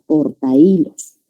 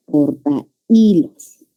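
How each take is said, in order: First: Said in the usual way. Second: "Portahilos" very slow and low, porta separated from hilos; syllables split apart. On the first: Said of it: "vamos a formar la palabra". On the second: Shown as a demonstration. Teacher showing the hiatus to students, "Portahilos" slowly split as porta-ílos. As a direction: draw out "Portahilos", breaking it between a and i. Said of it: "vocal abierta más vocal cerrada".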